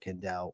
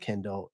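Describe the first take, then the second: First: The stress is on the second syllable. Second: The stress is on the first syllable. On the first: The speaker calls it right. "The emphasis on Dell" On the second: The speaker calls it wrong. "call me Kendall instead of"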